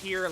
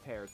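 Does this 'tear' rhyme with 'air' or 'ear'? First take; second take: ear; air. First: The word rhymes with 'ear'. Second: The word rhymes with 'air'. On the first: It means crying tears. "Tear like crying" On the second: It means ripping or cutting. "Tear like ripping a tear"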